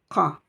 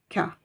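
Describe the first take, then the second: First: The consonant is made deep in the throat. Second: The consonant is made further forward in the mouth. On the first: The speaker calls it right. "avec le fond de la gorge" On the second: The speaker calls it wrong. "ne dites pas que ou ka"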